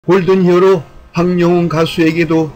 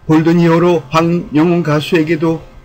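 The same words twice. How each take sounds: The two takes are said the same way.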